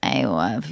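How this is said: It is said with creaky vocal fry.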